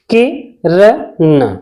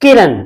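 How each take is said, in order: First: किरण said very slowly, syllable by syllable, with a short i; slow syllabified Kiran. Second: Said in the usual way. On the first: Shown as a demonstration. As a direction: spell out किरण slowly for the class. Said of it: "छोटी ई की मात्रा". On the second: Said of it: "जैसे".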